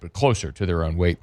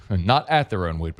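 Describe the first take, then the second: First: "closer" picked out, the rest falling away; stress on CLOSER. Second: "at" picked out before "their own weight"; stress on AT. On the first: Host qualifying how the Tigers punch, stress on "closer". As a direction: lean on the word "closer". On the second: Host qualifying how the Tigers punch, stress on "at". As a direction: lean on the word "at". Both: Real, not acted. Corrects himself by contrast.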